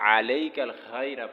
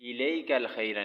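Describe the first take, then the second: First: The first word begins with an 'a' vowel. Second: The first word begins with an 'i' vowel. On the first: The speaker calls it right. "यहाँ पे भी अलैकल खैरा पढ़ना है" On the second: The speaker calls it wrong. "इलैकल खैरा नहीं पढ़ना है"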